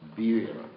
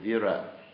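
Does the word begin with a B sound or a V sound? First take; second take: B sound; V sound. First: The word begins with a B sound. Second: The word begins with a V sound.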